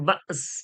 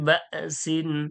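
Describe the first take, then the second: First: The word stops short without the -in ending. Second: The word ends with a full -in ending. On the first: The reader stops at this word. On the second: The reading continues without stopping.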